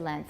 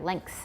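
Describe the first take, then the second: First: No k sound is heard before the th. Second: A k sound is heard before the th. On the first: The speaker calls it wrong. "Some say length" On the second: The speaker calls it right. "put a K in there"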